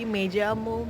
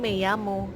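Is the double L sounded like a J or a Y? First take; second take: J; Y. First: The double L sounds like an English J. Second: The double L sounds like an English Y. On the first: "kalau di Amerika Latin dibacanya tuh kayak J" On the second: "Dibacanya tuh double L itu kayak Y"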